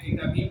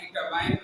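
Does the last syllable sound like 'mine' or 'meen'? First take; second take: meen; mine. First: The last syllable sounds like 'meen'. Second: The last syllable sounds like 'mine'. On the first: "कुछ लोग pronounce करते हैं कीटामीन" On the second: "कुछ लोग pronounce करते हैं कीटामाइन"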